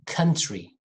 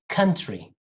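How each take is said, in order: The two takes are said the same way.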